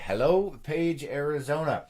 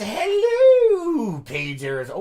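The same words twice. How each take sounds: First: It is read in a normal speaking voice. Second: It is read in a put-on character voice.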